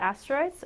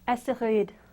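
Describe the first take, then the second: First: The word is pronounced with English sounds. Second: The word is pronounced with French sounds.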